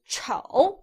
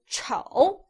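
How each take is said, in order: First: The pitch dips low, then rises. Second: The pitch dips low, then rises.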